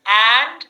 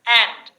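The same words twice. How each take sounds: First: And with open æ, loud; a sound. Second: And with a wider eh; eh sound. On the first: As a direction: drop the jaw on And. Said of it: "left hand side, a". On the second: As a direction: say and as end. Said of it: "right hand side, eh". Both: Shown as a demonstration.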